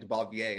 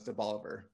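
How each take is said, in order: First: The name is given a French-style pronunciation. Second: The name is given a local Anglicized pronunciation. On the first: It is how an outsider would expect it. The speaker calls it wrong. "you'll think this has to be like Debalvier" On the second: It is how locals actually say it. The speaker calls it right. "that's the way we say it around here"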